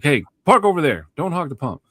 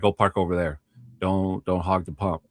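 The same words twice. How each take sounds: First: Imitating a stern guard, pitched higher; stern order. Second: Said in the usual way. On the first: Security guard sending a driver off the pump, imitated stern order. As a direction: retell it as a firm, raised-pitch order. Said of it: "he said it kind of sternly". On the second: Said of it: "but he said it kind of sternly".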